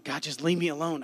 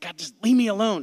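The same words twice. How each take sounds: First: Said in the usual way. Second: Louder, higher angry cry at God; angry outburst. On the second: Retold or imitated. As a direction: blurt it out in anger, loud and high. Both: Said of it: "I was angry".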